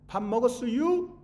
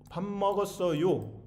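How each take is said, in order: First: 밥 먹었어요? asked high and loud as a bright question; standard question form. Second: 밥 먹었어요. said slowly and evenly as a plain statement; slow standard statement. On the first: Teacher asks class how it's said, lively standard 밥 먹었어요?. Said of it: "그거는 뭐 어떻게 발음해요?". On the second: Teacher contrasts with the dialect, slow even 밥 먹었어요. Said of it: "둘이 반대란 말이에요". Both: Shown as a demonstration.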